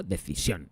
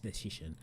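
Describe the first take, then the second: First: DECISIÓN in Spanish, final O stressed; accent on the O. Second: DECISION softly, in English pronunciation with a "sh" sound; no accent, English word. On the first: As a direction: read "decisión" as Spanish, stressing the last syllable. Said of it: "lleva tilde en la O". ("decisión" a la española, con tilde en la O) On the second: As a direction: quietly correct it to English "decision". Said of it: "No, no lleva tilde". ("decision" en inglés, sin tilde, en voz baja) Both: Shown as a demonstration.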